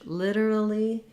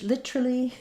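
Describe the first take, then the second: First: It is said with an American accent. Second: It is said with a British accent. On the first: "in American English" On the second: "in British English"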